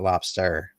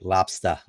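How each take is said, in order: First: The word ends in an 'er' sound. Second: The word ends in an open 'ah' sound. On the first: The speaker calls it wrong. "not lobster" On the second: The speaker calls it right. "T O P L O B S T A, like lobster"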